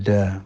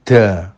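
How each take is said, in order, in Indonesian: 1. Konsonan itu dilepas tanpa embusan napas. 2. Konsonan itu dilepas dengan embusan napas. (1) "mestinya da" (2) "da angin, danya ada anginnya, da, salah ya"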